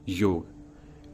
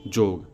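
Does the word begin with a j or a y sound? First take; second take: y; j. First: The word begins with a y sound. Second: The word begins with a j sound. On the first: The speaker calls it wrong. "ना कि योग" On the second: The speaker calls it right. "उच्चारण होगा जोग"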